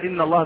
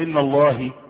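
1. الاسم ينتهي بالحركة 'a'. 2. الاسم ينتهي بحركة غير 'a'. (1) "بدل إن الله" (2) "فحش"

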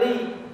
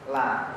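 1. Huruf l diikuti vokal i. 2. Huruf l diikuti vokal a. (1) "kalau baca itu bacanya li" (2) "Jangan dibaca la"

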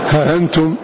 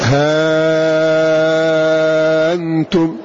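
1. تُسهَّل الهمزة وتبقى الحركة قصيرة. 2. تُبدَل الهمزة ألفًا ممدودة مدًا طويلًا. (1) "يقرأ بالتسهيل من غير مد" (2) "بالإبدال مع المد المشبع"

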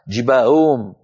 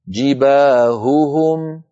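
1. الهاءان تضيعان وتختلطان ببعضهما. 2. الهاءان يُنطقان بوضوح ومنفصلين. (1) "وكأن الأصوات ضاعت وكأن الهاءات صارتا همزات مسهلات" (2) "ببيان صوت الهاء"

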